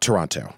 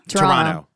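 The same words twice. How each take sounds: First: The second t is clearly pronounced. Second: The second t is dropped. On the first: This is how people from elsewhere say it. The speaker calls it wrong. "Not Toronto" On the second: This is how people from Canada say it. The speaker calls it right. "Silent T"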